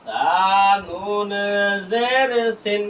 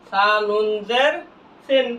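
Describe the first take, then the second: First: Letter names held long; slow recitation drill for learners; drawn-out spelling. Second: Said in the usual way. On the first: Shown as a demonstration. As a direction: stretch সা, নুন and জের evenly. Same spelling repeated drawn out.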